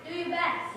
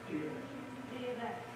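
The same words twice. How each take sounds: First: It is said with a lot of energy. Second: It is said with ordinary, low energy.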